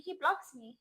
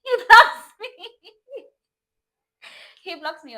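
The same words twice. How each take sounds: First: High-pitched incredulous report; indignant, pitched up; disbelief. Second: Very high, loud shriek breaking into laughter. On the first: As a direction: state it in raised-voice disbelief. First telling of being blocked. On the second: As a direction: scream it in disbelief, then laugh through it. Shrieks the repeat while laughing. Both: Real, not acted.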